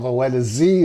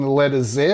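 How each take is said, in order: First: The letter is said as zee, American style. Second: The letter is said as zed, British style.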